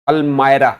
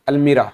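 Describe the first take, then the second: First: The middle syllable sounds like 'my'. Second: The middle syllable sounds like 'mee'. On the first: The speaker calls it right. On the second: The speaker calls it wrong. "अलमीरा नहीं"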